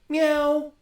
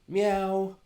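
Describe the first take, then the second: First: It is said with strong emphasis. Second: It is said with little emphasis.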